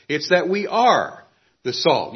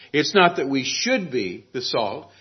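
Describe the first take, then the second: First: "are" hit firmly with a falling tune; stress on are. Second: Said in the usual way. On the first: Shown as a demonstration. Pastor corrects the congregation, pressing "are". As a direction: land on the word "are". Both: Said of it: "The verb here stresses being".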